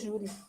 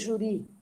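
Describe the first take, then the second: First: The stress is on the first syllable. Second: The stress is on the last syllable. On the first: The speaker calls it right. "vai dizer júri" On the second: The speaker calls it wrong. "Tu não vai dizer juri"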